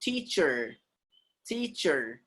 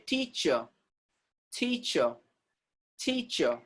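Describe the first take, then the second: First: Teacher with the final R sounded; American voiced R. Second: Teacher ending in "chuh", no R; British silent R. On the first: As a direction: curl a long R at the end of teacher. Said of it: "do not keep that R silent". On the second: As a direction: drop the final R of teacher, softly. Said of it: "they keep that R silent". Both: Shown as a demonstration.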